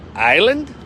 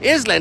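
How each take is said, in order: First: The s sound is silent in the word. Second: The s sound is pronounced in the word. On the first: The speaker calls it right. "I got it right" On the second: The speaker calls it wrong. "they never thought to make the S silent"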